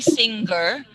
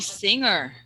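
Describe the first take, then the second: First: A hard g sound follows the ng. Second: No hard g sound follows the ng. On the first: The speaker calls it wrong. "the G sound. Okay, try to remove that. So don't say singer" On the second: The speaker calls it right. "but say singer"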